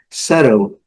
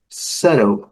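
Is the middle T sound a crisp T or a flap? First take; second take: flap; flap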